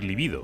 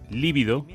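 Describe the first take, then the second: First: The stress falls on the second syllable. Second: The stress falls on the first syllable. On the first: It means sexual desire. The speaker calls it right. "cuando queremos decir libido" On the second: It means intensely pale. The speaker calls it wrong. "tendemos a decir líbido"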